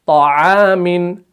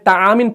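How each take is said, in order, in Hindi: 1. t भारी है, मुँह पूरा और गोल। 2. t पतला और हल्का है, इसमें भराव नहीं। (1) "जैसे हम पढ़ते हैं ना" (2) "अगर हमने तामिन पढ़ा तो ये ता बनेगा"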